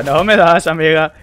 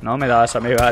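First: Louder, teasing sing-song taunt; mock the enemy loudly. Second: Said in the usual way. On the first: Real, not acted.

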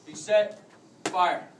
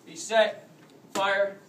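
No difference in how they are said.

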